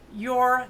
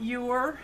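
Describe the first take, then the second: First: "you're" said as one Southern syllable, "yore", a bit louder. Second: Said in the usual way. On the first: Shown as a demonstration. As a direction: drawl "you're" into "yore" like a mountain local. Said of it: "We say".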